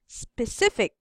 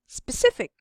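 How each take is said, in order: First: The word is said a little faster. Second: The word is said very quickly. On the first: "a little bit pa faster" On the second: "the fastest"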